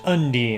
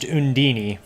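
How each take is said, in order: First: The name ends without an extra final syllable. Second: The name ends with an extra 'ee' syllable. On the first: "in this translation it's pronounced Undine" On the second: "I thought it was pronounced Undini"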